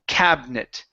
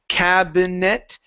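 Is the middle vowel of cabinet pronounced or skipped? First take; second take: skipped; pronounced. First: The middle vowel is dropped from the word. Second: The middle vowel is pronounced in full. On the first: The speaker calls it right. "we actually skip over the I there in the middle" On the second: The speaker calls it wrong. "instead of saying cabinet"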